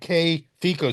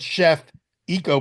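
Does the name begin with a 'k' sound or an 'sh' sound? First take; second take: k sound; sh sound. First: The name begins with a 'k' sound. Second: The name begins with an 'sh' sound. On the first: The speaker calls it right. "you pronounce it K Fico" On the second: The speaker calls it wrong. "it looks like it's spelled chef eco"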